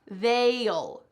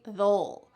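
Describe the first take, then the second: First: The word is said very clearly and fully. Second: The word is said quickly and reduced. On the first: "You could say this very clearly" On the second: "when we're speaking in a conversation, we just say they'll"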